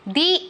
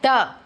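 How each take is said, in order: First: The vowel is a long 'ee' sound. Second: The vowel is a short 'uh' sound. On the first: The next word starts with a vowel sound. "तो हम use करेंगे दी" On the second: The next word starts with a consonant sound. "Which is a consonant sound, so it is द"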